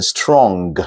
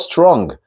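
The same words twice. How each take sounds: First: "strong" ending in a hard, released g; pronounced as spelled. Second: "strong" closing on ng with no hard g; soft ng ending. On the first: Teacher showing the spelling mistake, "strong" with hard g. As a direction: say "strong" slowly with the final g sounded. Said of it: "exactly the way it's spelled". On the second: Teacher correcting a word, "strong" with silent g. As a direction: let "strong" end in the nasal ng only. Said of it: "The G is ng". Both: Shown as a demonstration.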